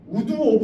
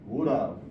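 First: It is said as two separate full words. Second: It is blended into one short reduced form. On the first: The speaker calls it wrong. "우드 오브 하지 마. 촌스러워" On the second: The speaker calls it right.

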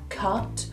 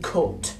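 First: The vowel is the open standard 'uh' sound. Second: The vowel is a rounded 'oo' sound, as in 'put'. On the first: The speaker calls it wrong. "We don't say but, cut" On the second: The speaker calls it right. "We say put, but, and cut. It's an U sound"

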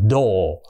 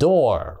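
First: It is said in a British accent. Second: It is said in an American accent. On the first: "Người Anh không á, thì họ đọc là door" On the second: "nhưng Mỹ thì đọc là door"

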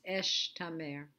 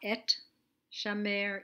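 First: The sh sound comes before the t sound. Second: The t sound comes before the sh sound. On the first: The speaker calls it right. "it's esh tamer" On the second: The speaker calls it wrong. "It's not et shamer"

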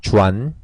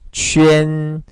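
First: It sounds like 'joo-an' with a plain 'u'. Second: It sounds like 'jwee-en' with rounded lips. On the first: The speaker calls it wrong. "주안 이렇게 발음하시면 안 돼요" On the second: The speaker calls it right. "이렇게 읽으셔야 맞죠"

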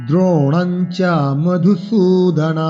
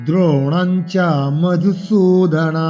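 The two takes are said the same way.

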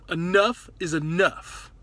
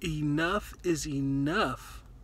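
First: The phrase is said loudly with strong force. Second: The phrase is said in a calm, plain voice. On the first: "say it like crazy, like strong to yourself" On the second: "Just say it right now"

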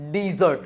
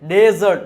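First: The first vowel sounds like 'ee' in see. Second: The first vowel sounds like 'e' in bed. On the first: The speaker calls it right. "આને ડીઝર્ટ વચાય" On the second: The speaker calls it wrong. "ડેઝર્ટ નહીં"

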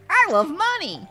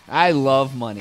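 First: It is said in an imitated character voice. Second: It is said in the speaker's ordinary voice.

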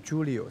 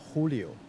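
First: The name starts with a J sound. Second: The name starts with an H sound. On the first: The speaker calls it wrong. "他不是叫Julio" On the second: The speaker calls it right. "他是叫Julio"

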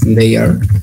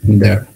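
First: It is said as two full separate words. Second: It is said as one short contracted word. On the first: "the last one is they are" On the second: "sound like that, there"

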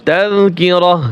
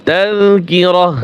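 No difference in how they are said.

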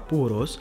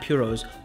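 First: The word is said with a Spanish-style pronunciation. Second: The word is said with an English-style pronunciation. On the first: The speaker calls it right. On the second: The speaker calls it wrong.

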